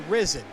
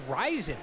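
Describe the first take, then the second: First: The first syllable has a short 'i' vowel. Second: The first syllable has a long 'eye' vowel. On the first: The speaker calls it wrong. "I always say risen" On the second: The speaker calls it right. "but I think it's Ryzen"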